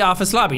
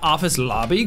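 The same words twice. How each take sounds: First: The voice falls at the end like a statement. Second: The voice rises at the end like a question. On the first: The place is stated with confidence. The speaker calls it right. "then say the office lobby" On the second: The speaker sounds unsure about the place. The speaker calls it wrong. "not office lobby, question mark?"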